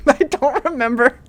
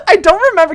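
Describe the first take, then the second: First: Said in the usual way. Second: Laughing. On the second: Real, not acted. Laughing at old meme.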